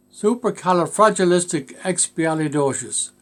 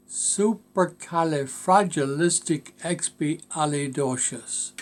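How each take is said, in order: First: Said in the usual way. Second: Supercalifragilisticexpialidocious drawn out slowly, part by part; Supercalifragilisticexpialidocious said very slowly, each syllable separated; slow pronunciation demo. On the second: Shown as a demonstration. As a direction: pronounce Supercalifragilisticexpialidocious slowly for a learner. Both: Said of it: "to pronounce and learn".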